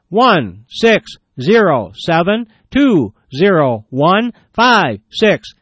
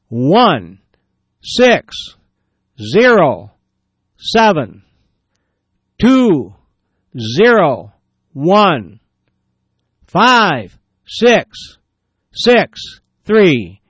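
First: The number is read a little faster. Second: The number is read at a normal pace.

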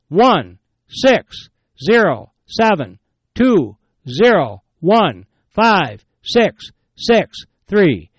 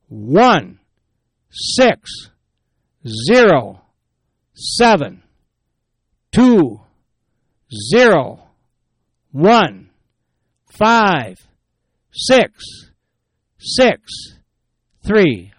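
First: The number is read faster. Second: The number is read slowly.

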